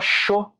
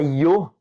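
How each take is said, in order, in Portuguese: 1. Começa com som de ch. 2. Começa com som de ee. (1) "como se fosse um C H O" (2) "parece um I, O"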